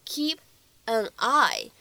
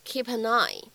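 First: KEEP, AN, EYE said as separate words. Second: "keep an eye" run together as kee-pa-neye; linked pronunciation. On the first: Teacher showing learners the single words, word by word. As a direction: pause between "keep" and "an eye", unlinked. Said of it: "这样的三个单词呢放在一起". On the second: Teacher demonstrating two links in "keep an eye", linked pronunciation. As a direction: link P into "an", N into "eye". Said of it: "其中会有两处连读". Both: Shown as a demonstration.

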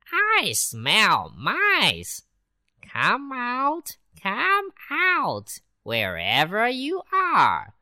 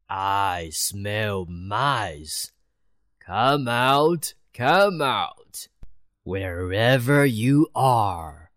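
First: High, teasing and slow, calling in a rising sing-song; a cat playfully luring mice. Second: A cat luring mice out of hiding; prowling cat. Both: Acted.

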